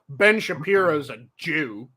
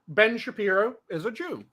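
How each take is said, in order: First: It is said in a sneering, contemptuous tone. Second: It is said in a plain, neutral tone. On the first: The speaker is using the word as a slur. "you're fucking anti Semitic" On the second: The speaker is simply stating someone's heritage. "they say it like that"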